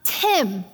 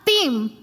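First: It is said with an English accent. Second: It is said with a Spanish accent.

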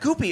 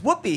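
First: The name begins with a hard G sound. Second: The name begins with a W sound. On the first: A learner's mispronunciation of the name. The speaker calls it wrong. "he always pronounced them with G's" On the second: The intended pronunciation of the name. The speaker calls it right. "it's Whoopi"

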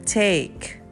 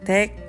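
First: The vowel is an 'ay' sound, rhyming with cake. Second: The vowel is a plain 'ah' sound. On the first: The speaker calls it right. "Jadi bacanya seperti bilang cake" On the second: The speaker calls it wrong. "A-nya kurang E"

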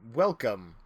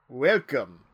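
First: It is said with little or no accent. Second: It is said with a thick Eastern European accent. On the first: "That's not a thick accent" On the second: "That sounded Romanian"

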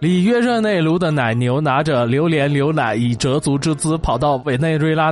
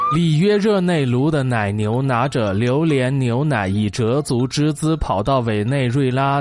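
First: It is said quickly, at a rapid pace. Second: It is said at a normal, steady pace.

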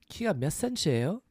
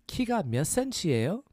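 Both takes have the same delivery.

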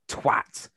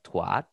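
First: It is said in a British accent. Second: It is said in an American accent. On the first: "how can twat compared to twat" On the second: "in America, when I first heard, like, what are they saying? They go like twat"

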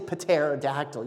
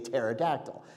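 First: The initial P sound is pronounced. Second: The initial P sound is silent. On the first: The speaker calls it wrong. "you don't say pterodactyl" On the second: The speaker calls it right. "you say pterodactyl"

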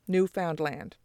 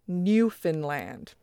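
First: All three parts get equal stress, middle is 'found'. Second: The middle part is reduced to sound like 'fin'. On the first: This was the common pronunciation before 1910. "given about equal stress to each of the three components" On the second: This was the pronunciation popularized around Confederation. "where found becomes Finn"

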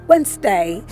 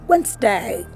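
First: The word has two syllables, with the D silent. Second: The word has two syllables, with the D silent.

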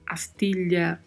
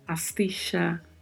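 First: The double L sounds like 'ly'. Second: The double L sounds like 'sh'. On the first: "som de LH" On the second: "de X ou CH"

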